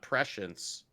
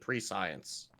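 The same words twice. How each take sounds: First: The word begins with a short 'presh' sound. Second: The word is said as 'pre' plus 'science'.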